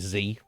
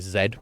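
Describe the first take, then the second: First: It is said the American way, as zee. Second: It is said the British way, as zed.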